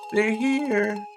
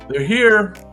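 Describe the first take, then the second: First: It is said in a little girl's voice. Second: It is said in his normal voice.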